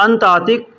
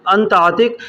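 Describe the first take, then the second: No difference in how they are said.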